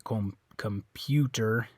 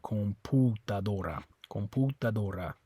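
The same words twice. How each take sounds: First: COMPUTER with PYOO in the middle; English COMPUTER, slow com-PYOO-ter; English U sound. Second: COMPUTADORA with U as POO; Spanish COMPUTADORA, pure oo vowel; Spanish oo sound. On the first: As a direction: say COMPUTER slowly with a y-glide on U. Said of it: "that makes a U sound". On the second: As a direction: say COMPUTADORA with no y-glide on U. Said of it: "in Spanish, it's an oo sound". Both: Shown as a demonstration.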